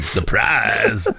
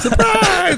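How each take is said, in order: First: It is said in a deep, low voice. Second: It is said in a light, higher voice.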